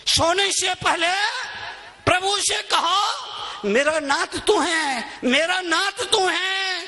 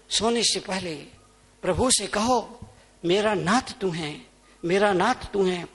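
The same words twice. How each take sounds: First: High, ringing devotional call; proclaimed prayer. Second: Soft, intimate, reverent coaxing; gentle prayer. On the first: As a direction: lift the prayer up for the crowd. Same prayer, proclaimed to crowd. (ऊँचे स्वर में प्रार्थना की पुकार) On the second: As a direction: coax them quietly into prayer. Same prayer, taken gently. (धीमे, कोमल स्वर में प्रार्थना) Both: Real, not acted.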